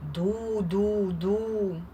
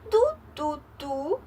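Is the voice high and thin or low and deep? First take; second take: low; high. First: It is said in a low, deep voice. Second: It is said in a high, thin voice. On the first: "А вовк ось таким" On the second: "Тонесеньким голосочком"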